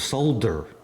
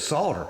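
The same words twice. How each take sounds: First: It rhymes with smolder, with the L heard. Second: It does not rhyme with smolder. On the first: Someone else says it this way. "It sounds like smolder" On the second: This is how the speaker says it. "my country boy ass says solder"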